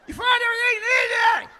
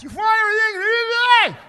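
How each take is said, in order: First: Even higher, louder, yelled again; strained shout, repeating herself; repeated shout through glass. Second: Shouting high and loud through plexiglass; muffled shout through a barrier; cashier yelling through glass. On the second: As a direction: yell it through thick glass with a mask on. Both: Retold or imitated. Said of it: "trying to yell through the glass".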